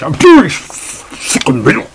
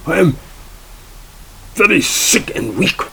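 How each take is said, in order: First: Louder, higher, slow hammed-up German whine; German accent. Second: Higher mock German accent, feeble; hammed-up German plea of weakness. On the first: Judge complains while stuffing burritos, loud slow mock German accent. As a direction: overplay a German accent, slowly. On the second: Burrito-eating judge claims sickness, higher mock German accent. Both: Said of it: "in a very strong German accent".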